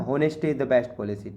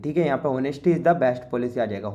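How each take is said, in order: First: Slow, careful reading of the answer; slow dictation. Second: Said in the usual way. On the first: Shown as a demonstration. Teacher dictating the answer sentence slowly to students. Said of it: "reading the answer sentence slowly". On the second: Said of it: "repeats the answer in normal talk".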